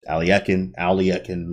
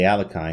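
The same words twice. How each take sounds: First: The name is said the original way. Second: The name is said the usual American way. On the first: This is how the name is really pronounced. The speaker calls it right. "but it is different" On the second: This is how most people in America say it. The speaker calls it wrong. "Most people say Alekhine, especially here in America"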